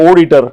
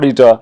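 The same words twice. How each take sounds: First: It is said with a Malayali-style regional pronunciation. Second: It is said with a standard, neutral pronunciation. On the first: "they say"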